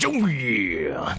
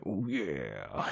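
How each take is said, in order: First: It is said loudly. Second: It is said quietly.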